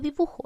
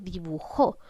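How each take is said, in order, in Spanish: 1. El acento no está en la última sílaba. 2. El acento está en la última sílaba. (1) "no estoy diciendo dibujo" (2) "estoy cargando la voz en la sílaba jo, que corresponde a la última sílaba"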